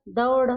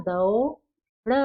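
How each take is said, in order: First: Said in the usual way. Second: दौड़ stretched, द and औ pulled apart; slow syllable demo of दौड़; drawn out slowly. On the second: Shown as a demonstration. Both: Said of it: "तो क्या बना".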